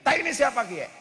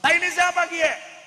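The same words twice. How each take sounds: First: Higher, louder Ngapak dialect question; Ngapak speaker. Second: High, loud shouted Ngapak question. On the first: Tegal man in Bandung asks about dung, Ngapak accent. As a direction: ask it like a startled Tegal man. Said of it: "Orang ngapaknya bilang kayak Kiai". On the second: Tegal man yells at the Bandung local, shouting. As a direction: yell it out like an outraged Tegal man. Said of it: "Akhirnya begitu masuk". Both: Retold or imitated.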